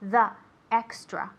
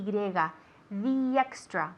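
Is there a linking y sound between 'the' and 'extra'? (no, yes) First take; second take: no; yes. First: No y sound links 'the' into 'extra'. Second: A y sound links 'the' into 'extra'. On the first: The speaker calls it wrong. "It's not" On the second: The speaker calls it right. "hacemos el link de la, el sonido Y"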